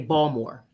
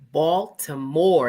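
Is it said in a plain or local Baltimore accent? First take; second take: local Baltimore; plain. First: It is said in a local Baltimore accent. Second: It is said in a plain, general accent.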